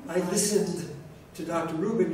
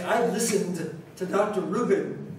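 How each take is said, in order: First: I listened with the final d barely there; dropped final d. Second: Listened with a crisp, clear final d; careful final d. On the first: Teacher showing students the dropped final consonant, ed swallowed. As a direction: clip the ed of listened so it sounds like listen. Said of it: "you say". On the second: Teacher modeling correct past tense, final d sounded clearly. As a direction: land the d at the end of listened. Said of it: "But if you say". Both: Shown as a demonstration.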